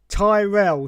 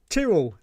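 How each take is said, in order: First: The name does not rhyme with squirrel. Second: The name rhymes with squirrel. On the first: The speaker calls it wrong. "she said" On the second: The speaker calls it right. "it's pronounced Tyrrell, as in squirrel"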